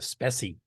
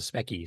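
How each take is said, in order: First: The middle consonant is soft, without a k. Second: The middle consonant is a hard k sound. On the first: The speaker calls it wrong. "they called it the Specie. Nobody called it the Specie" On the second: The speaker calls it right. "It was a Specky, short for Spectrum"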